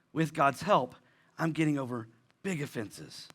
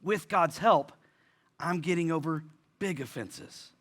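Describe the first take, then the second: First: Softer, lower and gentle repeat; quiet, tender restatement of hope. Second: Said in the usual way. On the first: Shown as a demonstration. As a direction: say it again softly, as comfort. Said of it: "I wanna be very gentle". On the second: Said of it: "repeated softer".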